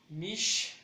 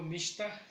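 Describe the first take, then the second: First: "mishta" split as mish, ta; higher, louder, with a gap before ta; syllable by syllable. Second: Said in the usual way. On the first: Shown as a demonstration. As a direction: break "mishta" into two beats. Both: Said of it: "Yo le daría mucho".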